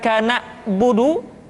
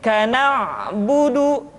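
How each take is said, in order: First: The middle consonant is dropped and the voice cut. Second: The middle consonant is slightly pressed and voiced. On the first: The speaker calls it wrong. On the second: The speaker calls it right. "tetapi agak ditekan sedikit"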